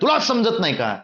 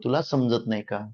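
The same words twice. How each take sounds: First: It is said at a raised, higher pitch. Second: It is said at a lowered, deeper pitch. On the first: People think the speaker is angry. "ते जर पट्टी वाढवली" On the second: People think the speaker is sad. "तेच जर खालच्या पट्टीत बोललो"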